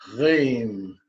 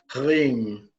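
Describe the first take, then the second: The two takes are said the same way.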